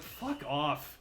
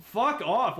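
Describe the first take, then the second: First: Slow, dragged-out exasperation; drawn-out fuck off. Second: Loud, high exasperated yell; shouted fuck off. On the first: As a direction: stretch every word, fed up. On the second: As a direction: blast it out, totally fed up. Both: Real, not acted. Venting about Undertale fans.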